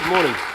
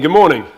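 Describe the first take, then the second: First: It is said in a flat, ordinary way. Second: It is said with lively, high energy.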